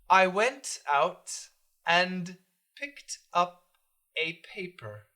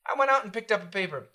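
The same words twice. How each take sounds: First: Each word is pronounced separately and fully. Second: The words run together with reduced T sounds. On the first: The speaker calls it wrong. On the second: The speaker calls it right.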